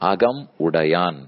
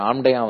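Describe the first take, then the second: First: The word is said in full, every syllable kept. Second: The word is shortened, with the middle sounds dropped. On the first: The speaker calls it right. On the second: The speaker calls it wrong. "ஆம்டையான்னு யாரும் இல்லை"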